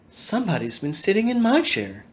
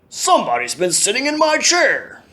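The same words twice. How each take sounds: First: It is said in a quiet, gentle voice. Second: It is said in a deep, growly voice.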